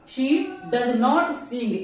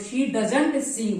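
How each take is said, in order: First: It is said in full, with 'not' strongly stressed. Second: It is said plainly, with 'not' contracted. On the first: The negation is emphasized. "नॉट के ऊपर आप stress डालेंगे" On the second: A plain neutral statement. "Normal अगर बोलेंगे"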